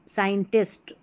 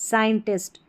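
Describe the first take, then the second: No difference in how they are said.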